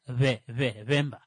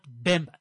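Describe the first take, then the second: First: The first consonant has a soft, v-like lip contact. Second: The first consonant is a full, hard b. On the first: The speaker calls it right. "the B is pronounced with a softer lip contact" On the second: The speaker calls it wrong. "Not Bemba"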